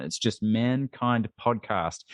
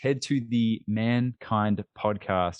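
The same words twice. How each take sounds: First: It's just Mankind Podcast, slowed, no "the"; slow correction. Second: Said in the usual way. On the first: Shown as a demonstration. Host correcting the show's name for listeners, said slowly. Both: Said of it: "there's no "the" in front".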